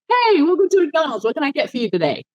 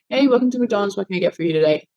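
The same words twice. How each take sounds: First: It sounds warm, with much emotion. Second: It sounds flat, with little emotion.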